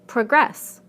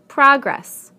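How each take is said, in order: First: The stress is on the second syllable. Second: The stress is on the first syllable. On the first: It is a verb. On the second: It is a noun.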